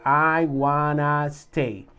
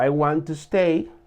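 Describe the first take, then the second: First: Want and to blend into one word, wanna. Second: Want and to are said as two full words. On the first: This is the informal, casual form. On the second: This is the standard, more formal form.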